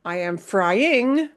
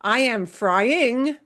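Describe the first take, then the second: First: Slow "frying" with stress on "FRY"; normal stress. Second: Slow "frying" with the punch on "ING"; wrong stress. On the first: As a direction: put the weight on "FRY" in "frying". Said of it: "You would say frying". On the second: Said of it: "you would never say frying". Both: Shown as a demonstration.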